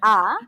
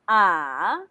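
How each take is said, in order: First: The pitch rises like a question. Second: The pitch dips down and comes back up. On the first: "second tone, it's like you're asking" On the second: "Third tone"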